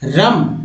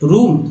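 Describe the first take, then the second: First: The vowel is a short 'uh' sound. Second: The vowel is a long 'oo' sound. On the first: The speaker calls it wrong. "बिल्कुल नहीं" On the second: The speaker calls it right. "यानी ऊ पढ़ रहे हैं यहाँ पर"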